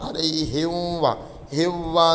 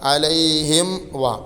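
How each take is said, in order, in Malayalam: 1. wa-ക്ക് മുമ്പ് m ശബ്ദം വിട്ടുപോകുന്നു. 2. wa-ക്ക് മുമ്പ് m ശബ്ദം വ്യക്തമായി അടയ്ക്കുന്നു. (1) "നേരെ മറിച്ച് എങ്ങനെ ഓതരുത്?" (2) "അവിടെ പ്രത്യേകം ശ്രദ്ധിക്കണം"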